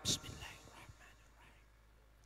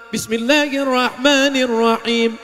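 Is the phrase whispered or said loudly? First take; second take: whispered; loudly. First: The phrase is whispered. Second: The phrase is said loudly.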